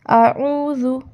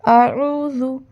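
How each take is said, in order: First: A throaty catch sound comes after the first vowel. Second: The same.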